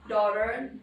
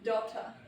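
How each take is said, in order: First: It is said in an American accent. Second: It is said in a British accent.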